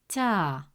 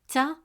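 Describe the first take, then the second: First: The vowel is long. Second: The vowel is short. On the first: "the presence of alif makes it ta" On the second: "Instead of pronouncing it as ta"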